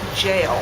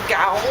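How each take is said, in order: First: It starts with a j and sounds like jail. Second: It starts with a hard g and rhymes with owl. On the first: The speaker calls it right. "its correct pronunciation, which is actually jail" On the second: The speaker calls it wrong. "I would think in my mind gowl"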